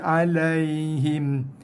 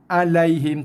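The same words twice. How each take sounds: First: The 'ai' sound is said soft and gentle. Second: The 'ai' sound is said hard and quick. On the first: The speaker calls it right. "tapi alaihim" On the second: The speaker calls it wrong. "bukannya alaihim alaihim"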